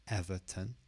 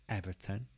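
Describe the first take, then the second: Both takes have the same delivery.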